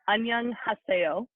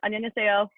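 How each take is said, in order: First: It is said slowly. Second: It is said faster.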